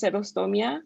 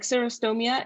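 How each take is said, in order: First: Xerostomia with S onset and tapped R; Spanish pronunciation. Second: Xerostomia with English R and vowels; English pronunciation. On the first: Tutor contrasting languages for class, Spanish xerostomia. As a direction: say xerostomia the Spanish way, "seh-ro-STO-mia". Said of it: "in Spanish, it's just". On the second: Tutor contrasting languages for class, English xerostomia. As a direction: say xerostomia the English way, "zero-STOH-mia". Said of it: "in Spanish, it's just xerostomia". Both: Shown as a demonstration.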